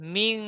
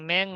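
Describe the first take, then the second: First: The vowel sounds like 'i'. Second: The vowel sounds like 'e'. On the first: The speaker calls it right. "না মিং" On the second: The speaker calls it wrong. "আপনি যে বলেছেন একারের ভাব নিয়ে মেং মেং"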